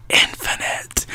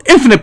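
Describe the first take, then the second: First: A soft, voiceless echo of the word; whispered echo. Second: Said in the usual way. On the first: Acted. Guide echoes how many perspectives remain, whispered. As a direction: whisper INFINITE, hushed and mysterious.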